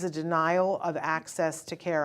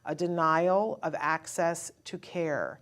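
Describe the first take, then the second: First: It is said at a normal pace. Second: It is said slowly and deliberately.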